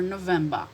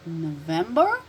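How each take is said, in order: First: NOVEMBER with final R dropped, falling; British pronunciation. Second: NOVEMBER with final R sounded, rising; American pronunciation. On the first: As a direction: say November British-style, ending in "ba". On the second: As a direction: say November American-style, r at the end. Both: Shown as a demonstration. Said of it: "difference between American and British pronunciation".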